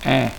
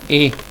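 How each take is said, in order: First: The vowel is an open e sound. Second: The vowel is a closed e sound. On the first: The speaker calls it right. "sino suena E. Es una E abierta" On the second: The speaker calls it wrong. "no suena E"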